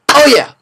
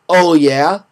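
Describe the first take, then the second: First: The cheer is quick and sharp. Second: The cheer is slow and low. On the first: The speaker calls it right. "But it's like this" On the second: The speaker calls it wrong. "not like this"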